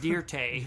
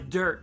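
First: The name is pronounced in a fancy, dressed-up way. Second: The name is pronounced plainly, as ordinary dirt. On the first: The speaker calls it wrong. "Don't try to church it up" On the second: The speaker calls it right. "my dirt"

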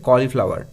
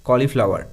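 Both takes have the same delivery.

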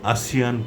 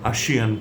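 First: The middle consonant is an s sound. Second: The middle consonant is an sh sound. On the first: The speaker calls it right. "সঠিক উচ্চারণ আসিয়ান পড়ব আমরা" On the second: The speaker calls it wrong. "কেউ কেউ এটিকে আসিয়ান পড়েন"

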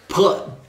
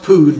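First: The vowel is short, as in dud. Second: The vowel is long, as in food. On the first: The speaker calls it right. "Pud like dud" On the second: The speaker calls it wrong. "It's pronounced pood"

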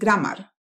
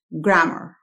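First: The vowel before the final R is fully pronounced. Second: The vowel before the final R is barely there. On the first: The speaker calls it wrong. "no se dice grammar" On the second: The speaker calls it right. "La palabra es grammar"

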